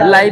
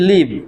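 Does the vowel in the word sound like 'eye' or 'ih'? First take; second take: eye; ih. First: The vowel is a long 'eye' sound. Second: The vowel is a short 'ih' sound. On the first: Happening in real time. "LIVE এটা কখনো কখনো উচ্চারণ লাইভ হতে পারে" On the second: To reside somewhere. "বাস করা ইংরেজিটা কি শিখলাম? LIVE, লিভ।"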